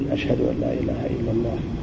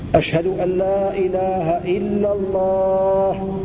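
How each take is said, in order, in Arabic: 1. تُقال العبارة بصوت منخفض وهادئ. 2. تُقال العبارة بصوت عالٍ ومرتفع. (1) "هكذا يقول الشهادتين أولا سرا بصوت منخفض" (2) "ثم يعيد الشهادتين بصوت مرتفع"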